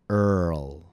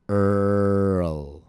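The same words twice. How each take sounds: First: The word is said a bit more quickly. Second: The word is said slowly and drawn out. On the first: "Now a bit faster" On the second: "Please listen and repeat slowly"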